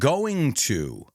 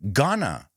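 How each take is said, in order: First: Both words are said fully and separately. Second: The two words blend into one reduced word.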